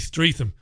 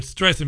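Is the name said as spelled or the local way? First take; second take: as spelled; local way. First: The name is pronounced the way it looks written. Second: The name is pronounced the local, established way. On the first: The speaker calls it wrong. "I pronounced it the way it looked to me" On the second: The speaker calls it right. "Yes, you're right"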